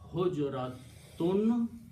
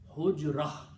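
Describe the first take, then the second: First: The word ends in a full tun sound. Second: The word ends in a stopped h sound. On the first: "always tun" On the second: "you pronounce like there is a sukoon here and a sukoon there"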